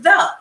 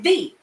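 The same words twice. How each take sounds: First: The vowel is short and reduced, like 'thuh'. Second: The vowel is a long E, like 'thee'. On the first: "You pronounce it the" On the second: "But they made the E long"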